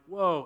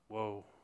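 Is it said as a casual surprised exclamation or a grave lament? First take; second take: casual exclamation; grave lament. First: It sounds like a casual, surprised exclamation. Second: It sounds like a heavy, grave lament.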